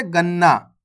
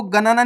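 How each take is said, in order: First: गन्ना said as "gan-naa", with a doubled n; half-letter reading. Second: गणना said as "ga-na-naa", in three syllables; wrong full-letter reading. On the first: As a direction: hold the n in गन्ना, no vowel inside it. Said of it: "कैसे?". (गन्ना में आधा न, अगले न से जुड़ा) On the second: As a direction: give the first n in गणना its own vowel. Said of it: "आपको गणना नहीं पढ़ना". (गणना को तीन हिस्सों में "ग-न-ना" पढ़ें) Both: Shown as a demonstration.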